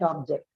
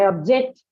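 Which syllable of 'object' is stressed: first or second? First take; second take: first; second. First: The stress is on the first syllable. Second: The stress is on the second syllable. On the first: The word is used as a noun. "you stress it on the first one" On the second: The word is used as a verb. "you stress it on the second"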